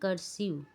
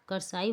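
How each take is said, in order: First: The second vowel is a short 'ih' sound. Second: The second vowel is a long 'eye' sound. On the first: The speaker calls it right. "इसीलिए ये कर्सिव हुआ" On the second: The speaker calls it wrong. "इसको कर्साइव नहीं पढ़ेगा"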